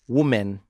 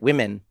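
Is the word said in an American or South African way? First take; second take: South African; American. First: The first vowel sounds like 'wo', as in 'woman'. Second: The first vowel sounds like 'wi', as in 'wimmin'. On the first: "in South Africa we say woman, the way it's written" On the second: "You say it like it's W E M E N"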